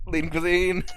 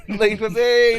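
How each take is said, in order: First: Said in the usual way. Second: Loud, slow, drawn-out; slow shout. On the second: Pretend. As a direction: yell it out slowly. Card answer repeated, shouted slowly.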